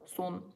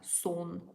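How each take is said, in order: First: The vowel is a short unrounded 'uh'. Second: The vowel is a rounded open 'o'. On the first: The speaker calls it right. "Like in the word sun in English" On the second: The speaker calls it wrong. "You don't read it as son"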